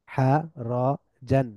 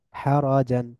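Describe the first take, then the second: First: হারাজান slow, split ha, ra, jan; syllable by syllable. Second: Said in the usual way. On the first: Shown as a demonstration. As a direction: pause between the syllables of হারাজান. Teacher breaks word into syllables. (ভেঙে ভেঙে হারাজান)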